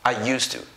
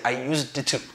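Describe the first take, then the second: First: The -ed ending blends silently into 'to'. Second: The -ed ending is sounded as an extra syllable. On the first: The speaker calls it right. "you just say used to" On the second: The speaker calls it wrong. "You don't say I used the to"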